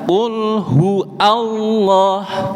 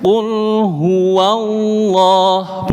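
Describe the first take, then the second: First: The wa is dropped, with a break before Allah. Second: The wa is pronounced and flows into Allah. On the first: The speaker calls it wrong. "bukan qul hu Allah" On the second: The speaker calls it right. "Jadi mengalir bacaannya"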